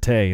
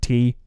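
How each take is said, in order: First: The vowel sounds like 'ay' in day. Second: The vowel sounds like 'ee' in see. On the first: This is how it is said in Ireland. "they pronounce it tay" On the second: This is the usual pronunciation elsewhere. "and not tea"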